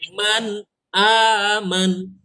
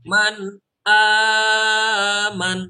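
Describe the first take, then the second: First: The long vowel is swung for two short counts. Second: The long vowel is stretched out too long. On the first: The speaker calls it right. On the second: The speaker calls it wrong. "Kalau tidak diayun, khawatirnya nanti kepanjangan"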